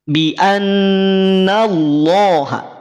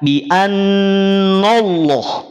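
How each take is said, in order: First: The nun is pulled thick toward Allah. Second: The nun stays thin before Allah. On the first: The speaker calls it wrong. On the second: The speaker calls it right. "Pindahkan rahang ketika sudah masuk pada lafaz Allah"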